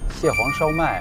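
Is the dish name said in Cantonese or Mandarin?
Mandarin. The dish name is said in Mandarin.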